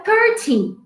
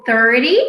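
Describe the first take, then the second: First: Thirty said higher in a changed voice with a sharp t; crisp t thirty. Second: Thirty with the t tapped, like thirdy; flapped thirty. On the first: Teacher to students, modelling the crisp-t thirty in a changed voice. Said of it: "Mas você pode dizer". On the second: Teacher to students, showing her own flapped thirty. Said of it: "como eu digo". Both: Shown as a demonstration.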